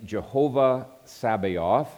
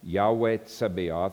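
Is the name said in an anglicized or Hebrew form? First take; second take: anglicized; Hebrew. First: The name is said in an anglicized form. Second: The name is said in a Hebrew form. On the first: "It is the name Jehovah Sabaoth" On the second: "like the Hebrew pronunciation"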